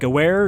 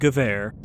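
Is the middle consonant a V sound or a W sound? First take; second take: W sound; V sound. First: The middle consonant is an English W sound. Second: The middle consonant is a V sound. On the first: The speaker calls it wrong. "It is not Gewehr" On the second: The speaker calls it right. "if we get a W, we pronounce it like a V"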